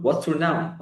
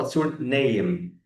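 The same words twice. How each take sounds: First: Said in the usual way. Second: Slow, careful model sentence; correct version. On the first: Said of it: "مش هقول له". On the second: Shown as a demonstration. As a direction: spell it out slowly for the learner. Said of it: "هقول له".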